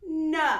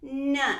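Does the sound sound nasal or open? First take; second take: open; nasal. First: The sound is open, not in the nose. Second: The sound is stuck in the nose.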